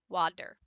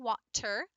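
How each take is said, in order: First: The middle consonant is a voiced d sound. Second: The middle consonant is a clear t sound. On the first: "So therefore you end up with a d" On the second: "instead of saying water"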